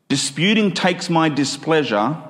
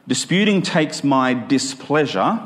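The two takes are said the same way.

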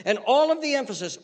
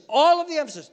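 First: Said in the usual way. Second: All of the emphasis pushed higher and louder; stressed repeat. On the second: Acted. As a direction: lean hard on "all".

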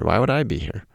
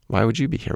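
First: "I" stressed, falling at the end. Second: "you" lifted and stressed, rising at the end. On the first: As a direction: lean on "I" in "Why would I be here?". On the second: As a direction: lean on "you" in "Why would you be here?". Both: Real, not acted.

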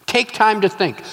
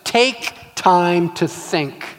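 First: Said in the usual way. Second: Slow deliberate. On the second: Shown as a demonstration. Preacher teaching the first step, slow and deliberate. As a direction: let each word land. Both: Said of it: "first step".

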